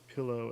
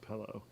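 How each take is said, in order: First: The first vowel sounds standard, like 'pill'. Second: The first vowel is shifted, Midwest style. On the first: This is how the other person said it. "that you said pillow" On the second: This is the regional Ohio-style pronunciation. "not pillow ... the Midwest vowel shift"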